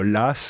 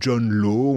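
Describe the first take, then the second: First: The name ends with an s sound. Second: The name ends without an s sound. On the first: "on devrait dire Las" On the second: "c'est comme euh, John Law"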